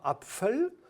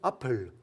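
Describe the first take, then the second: First: An f sound follows the p. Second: No f sound follows the p. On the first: This is the standard German form. "non pas Apfel" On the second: This is the local Francique form. "on fait sauter le F après le P"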